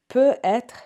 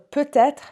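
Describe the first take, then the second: First: No T sound links the two parts. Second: A T sound links the two parts. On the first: It means can be. "I cannot hear the T, that means like can be" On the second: It means maybe. "when I can hear the T, it means maybe"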